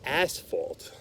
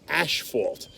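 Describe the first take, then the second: First: The word has an s sound in the middle. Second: The word has an sh sound in the middle. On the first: The speaker calls it right. "It's not asphalt, it's asphalt" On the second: The speaker calls it wrong. "people out there in our reptile world are calling the asphalt gene ashfault"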